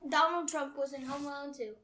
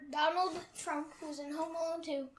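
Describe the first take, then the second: First: It is said at a normal pace. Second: It is said slowly.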